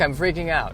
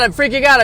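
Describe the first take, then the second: First: It is said in a calm, detached way. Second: It is said in a panicked, agitated way. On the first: The speaker observes the panic from a distance. The speaker calls it right. "slightly detached" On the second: The speaker is caught up in the panic. The speaker calls it wrong. "instead of saying, oh my God"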